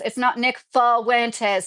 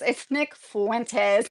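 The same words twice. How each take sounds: First: Fuentes said as "Fal-wentes", the wrong way; slow, mocking the wrong "Fuentes"; wrong pronunciation. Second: Fuentes said "FWEN-tes", slowly and carefully; correcting the name; right pronunciation. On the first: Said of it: "so many people are saying". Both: Shown as a demonstration.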